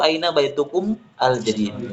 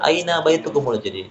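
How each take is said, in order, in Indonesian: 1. Baitukum dan al jadid diucapkan sebagai dua bagian yang terpisah. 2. Baitukum langsung menyambung ke jadid sebagai satu kesatuan. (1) "Aslinya itu" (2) "langsung aja"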